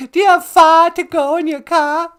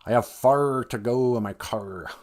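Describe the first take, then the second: First: Put-on high, loud Boston accent with dropped Rs; mock Boston accent. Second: Slow Midwestern accent with heavy Rs; Midwestern hard R. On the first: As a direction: shout it in exaggerated Bostonian. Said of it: "sound like people from Boston". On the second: Shown as a demonstration. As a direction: exaggerate every Midwestern R, unhurried. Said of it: "we kinda pull out our chins".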